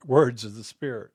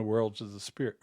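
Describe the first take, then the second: First: "words" said without an l, wə˞dz, a bit louder; "words" fixed and stressed; corrected word. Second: "worlds" said with an l, wə˞ldz; "worlds" misspoken for "words"; slip of the tongue. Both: Real, not acted.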